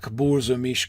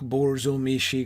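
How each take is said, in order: First: The word ends without the final vowel. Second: The word ends with a final vowel syllable. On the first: "that final I just isn't pronounced" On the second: "you hear the extra syllable"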